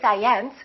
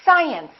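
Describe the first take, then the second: First: The stress is on the second syllable. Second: The stress is on the first syllable. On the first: The speaker calls it wrong. "we don't say science" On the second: The speaker calls it right. "we say science"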